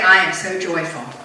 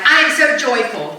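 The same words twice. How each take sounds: First: It is said flatly, without energy. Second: It is said sarcastically, meaning the opposite.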